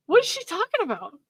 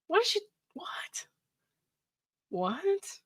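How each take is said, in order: First: Pitched up high in disbelief; a high, baffled what is she talking about. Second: A breathless whispered what, what; stunned whisper. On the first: Reading his ex's texts, high and baffled aloud. Reacting to the text. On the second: Stunned by his ex's text, whispered disbelief. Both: Real, not acted.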